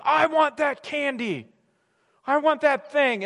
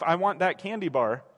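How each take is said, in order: First: Put-on higher, slow whining toddler; drawn-out childish wanting; whiny toddler. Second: A hint of a sulky grown man; plain adult voice, lightly petulant; low, flat mock demand. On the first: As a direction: plead like a kid in the candy aisle. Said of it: "toddler who's like". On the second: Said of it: "grown man yelling at his wife".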